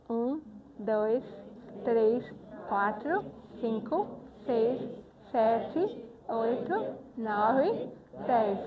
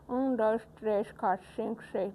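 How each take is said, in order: First: "Um, dois, três" one by one, each fully articulated with pauses between; well-articulated counting. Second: "Um, dois, três" run together with barely opened mouth, vowels swallowed; mumbled counting. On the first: Teacher showing the finger exercise done properly, "Um, dois" fully articulated. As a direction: count "Um, dois, três, quatro" with a wide smiling mouth, every syllable distinct. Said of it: "Tem que falar bem".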